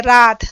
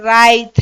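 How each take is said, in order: First: रात with a plain long aa; Hindi रात. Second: राइत with an added i glide after aa; Nagpuri राइत. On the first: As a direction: say रात as in Hindi, short and firm. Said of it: "हम लोग क्या बोलते हैं". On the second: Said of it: "Nagpuri में कैसे बोलते हैं". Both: Shown as a demonstration.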